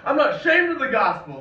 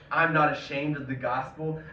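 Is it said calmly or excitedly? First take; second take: excitedly; calmly. First: It is said excitedly, like an exclamation. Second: It is said calmly, like plain reading.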